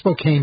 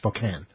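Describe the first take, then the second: First: The name is pronounced the way it is spelled. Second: The name is pronounced the way locals say it. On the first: The speaker calls it wrong. "It's spelled Spokane, but you're not supposed to say it that way" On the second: The speaker calls it right. "You're supposed to say Spokane"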